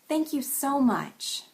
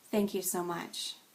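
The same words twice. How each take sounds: First: It is said in a plain, sincere way. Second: It is said in a flat, understated way. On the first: The thanks is genuinely meant. "Back to sincere" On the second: The thanks is held back. "And then understated"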